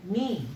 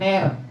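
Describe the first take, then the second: First: The syllable ends with an 'ee' vowel sound. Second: The syllable ends with an 'er' vowel sound. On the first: The speaker calls it right. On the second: The speaker calls it wrong. "Jangan ner"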